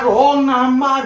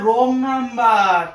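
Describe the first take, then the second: First: Said in the usual way. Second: রং number drawn out word by word, very slow; spelled out slowly. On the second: Shown as a demonstration. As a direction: stretch রং number so she finally gets it. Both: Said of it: "বুঝছো না কেন ব্যাপারটা?".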